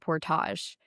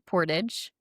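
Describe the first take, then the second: First: The word is pronounced the Canadian way. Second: The word is pronounced the American way. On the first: "Canadians call it a portage" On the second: "Americans call it a portage"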